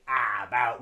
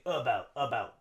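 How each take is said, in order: First: "ah, about" with a full open ah; wrong full a. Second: "about" begins with a tiny uh schwa. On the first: Teacher showing the wrong full vowel. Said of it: "we don't say". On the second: Teacher modeling the natural schwa. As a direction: swallow the first vowel of "about". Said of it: "we say". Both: Shown as a demonstration.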